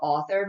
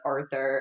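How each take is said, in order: First: It sounds like the word 'author'. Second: It sounds like the name 'Arthur'. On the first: The speaker calls it wrong. "I'd always call it author" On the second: The speaker calls it right. "no, it's Arthur"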